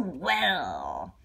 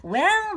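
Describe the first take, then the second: First: Low satisfied well. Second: High, loud intrigued well; high rising well. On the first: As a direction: drop it low, pleased and knowing. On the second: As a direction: pitch it up with curiosity. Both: Acted. Circus man addresses George.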